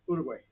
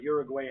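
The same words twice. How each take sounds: First: The name is said closer to the native pronunciation. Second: The name is said with an anglicized pronunciation. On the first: The speaker calls it right. "I'm still not pronouncing it well, but he tried to teach me how to say it properly" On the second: The speaker calls it wrong. "how I used to mispronounce it"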